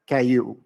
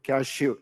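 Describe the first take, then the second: First: The word is said without the 'sh' sound. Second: The word includes a clear 'sh' sound. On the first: "the child with the hearing aid will always pronounce it as caillou because he's not listening to that ish" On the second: "tell the child to pronounce cashew"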